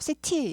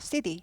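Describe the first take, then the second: First: The middle t is a crisp, fully released t. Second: The middle t is softened into a quick flap. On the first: The speaker calls it wrong. "city 이러진 않아요" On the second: The speaker calls it right. "약화되죠. city, city 하죠"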